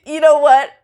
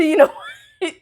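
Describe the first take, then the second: First: You know what, louder and high; a louder, higher you know what; louder exasperated repeat. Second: Laughing it out high, half giving up; you know what, said through a laugh; laughing exasperation. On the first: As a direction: push it out, fed up. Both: Retold or imitated. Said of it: "I'm done".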